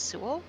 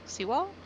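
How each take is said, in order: First: "Sewell" said as SOO-ul; first pronunciation of Sewell. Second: "Sewell" as SEE-wahl, rising and higher; second pronunciation of Sewell. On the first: Trying out a character's name, "Sewell" as SOO-ul. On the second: Unsure of a character's name, asking "Sewell" as SEE-wahl. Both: Shown as a demonstration.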